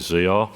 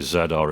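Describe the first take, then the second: First: Z is said the American way, 'zee'. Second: Z is said the British way, 'zed'.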